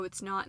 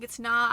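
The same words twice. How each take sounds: First: Said in the usual way. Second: Firm loud insistence. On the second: Retold or imitated. Patient to doctor, loudly insisting it's not ectopic. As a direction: cut her off loudly with a hard "not".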